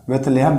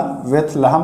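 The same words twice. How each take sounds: First: बेथलेहम with a long "e" after the th: beth-LAY-ham; alternative pronunciation. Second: बेथलहम with a short "a" after the th: beth-la-ham; recommended pronunciation. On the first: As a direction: say बेथलेहम with "le", not "la". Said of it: "इसका नाम कहीं कहीं आपको मिलेगा". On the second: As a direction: say बेथलहम with "la", not "le". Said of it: "फिलहाल बेथलहम पढ़िए आप". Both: Shown as a demonstration.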